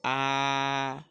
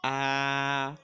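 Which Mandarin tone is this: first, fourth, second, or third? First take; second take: first; first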